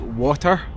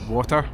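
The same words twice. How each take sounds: First: The pitch goes up then down. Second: The pitch stays flat throughout. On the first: This is how people in England say it. "like England, they would say like water, like up down" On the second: This is how Scottish people say it. "We would just say water, like flat"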